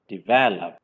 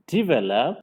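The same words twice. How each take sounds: First: The stress is on the second syllable. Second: The stress is on the first syllable. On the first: The speaker calls it right. "it should be on the second syllable" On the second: The speaker calls it wrong. "stress on the first syllable"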